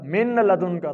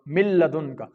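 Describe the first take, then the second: First: The n sound is clearly pronounced before the l. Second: The n disappears into a doubled l sound. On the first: The speaker calls it wrong. "अब इसको अगर कोई पढ़े मिन लदुन का, तो ये गलत है" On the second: The speaker calls it right. "मीम को डायरेक्ट लाम के साथ मिलाएंगे तो ये हमारा बिल्कुल दुरुस्त अदा होगा"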